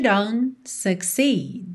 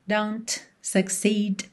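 First: The T in don't is dropped and not heard. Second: The T in don't is clearly pronounced. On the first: The speaker calls it right. "Você ouve ... but you don't succeed" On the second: The speaker calls it wrong. "Você não ouve ... don't succeed"

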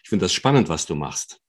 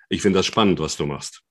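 First: It is said in a friendly, warm tone. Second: It is said in an unfriendly, off-putting tone.

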